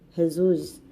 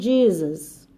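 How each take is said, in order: First: The word begins with a harsh H sound. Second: The word begins with an English J sound. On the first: This is the Spanish pronunciation. "porque o J deles é como se fosse um Rá" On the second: This is the English pronunciation. "no inglês eles falam Jesus"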